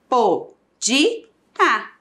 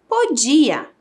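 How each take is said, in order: First: Po-di-a, cada sílaba destacada com pausa; separando as sílabas. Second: Said in the usual way. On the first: Shown as a demonstration. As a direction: bata palmas em cada sílaba de podia. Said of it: "Três sílabas". (separando em sílabas devagar)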